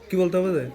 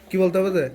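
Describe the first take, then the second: The two takes are said the same way.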